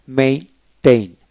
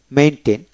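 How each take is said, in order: First: maintain slowly split into main and tain; syllable-by-syllable. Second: Said in the usual way. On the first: Shown as a demonstration. Teacher showing how to read the verb, maintain slowly split. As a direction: sound out maintain in two slow pieces. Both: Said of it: "আসুন কিভাবে পড়বেন".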